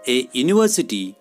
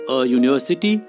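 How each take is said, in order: First: The article is said as a full 'ay'. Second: The article is said as a short 'uh'. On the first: "कोणी ए म्हणतं" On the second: "कोणी अ पण म्हणतं"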